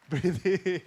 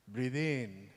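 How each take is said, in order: First: Laughing instruction. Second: Softly quiet breathe-in cue; calm child coaching. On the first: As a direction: breathe in said through a laugh. Son coaching with a laugh. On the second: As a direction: gently lead the breath like a small coach. Son coaching his father. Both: Retold or imitated.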